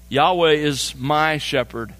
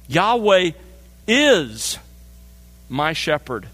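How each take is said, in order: First: Said in the usual way. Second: Measured, pausing emphasis on my in Yahweh is my shepherd; stress on my. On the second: Shown as a demonstration. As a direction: space out Yahweh, is and my, leaning on my. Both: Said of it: "the emphasis really in many ways falls here".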